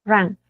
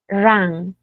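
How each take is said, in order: First: "run" with a short a sound; short vowel. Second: "run" drawn out with an open a, like "ran"; longer vowel. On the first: Teacher contrasting it with the second form, short vowel. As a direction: keep the vowel in "run" brief. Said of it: "Así cortito". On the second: Teacher showing students the second form, lengthened vowel. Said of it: "esta dura más". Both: Shown as a demonstration.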